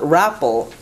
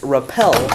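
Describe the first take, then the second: First: The stress is on the first syllable. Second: The stress is on the second syllable. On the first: The speaker calls it wrong. "where it's not rappel" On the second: The speaker calls it right. "on the syllable at the end"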